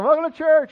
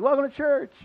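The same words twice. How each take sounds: First: Bigger cheery greeting. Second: Cheery greeting. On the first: Mock greeting, second service. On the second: Mock greeting to congregation. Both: Retold or imitated.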